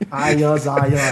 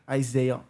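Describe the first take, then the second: First: The name is said the non-American way. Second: The name is said the American way. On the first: "that's how I say it" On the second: "They say Isaiah in America"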